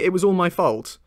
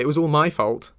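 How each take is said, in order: First: The stress falls on the last word, 'fault'. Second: The stress falls on a word before 'fault'. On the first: The speaker calls it right. "that's how I say it" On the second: The speaker calls it wrong. "I don't say it was all my fault"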